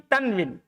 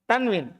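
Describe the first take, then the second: No difference in how they are said.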